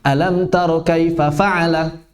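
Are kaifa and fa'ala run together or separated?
separated. Kaifa and fa'ala are separated by a raised voice. The speaker calls it right. "dipisahkan antara dua kata kaifa dengan fa'al ... Dengan nabar"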